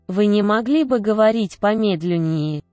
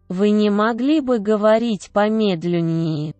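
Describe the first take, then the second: No difference in how they are said.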